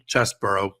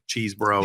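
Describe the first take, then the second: First: The first vowel is a short 'eh' sound. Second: The first vowel is a long 'ee' sound. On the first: "which I also mispronounce regularly" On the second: "I originally called him"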